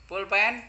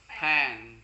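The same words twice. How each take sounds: First: "Pulpen" called out in full, two syllables; "Pulpen" as the Indonesian prompt. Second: "pen" as one syllable with puffed P; "pen" dropped down as the translation; English pen. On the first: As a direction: project "Pulpen" loud and higher. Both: Shown as a demonstration. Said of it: "Mirip kan?".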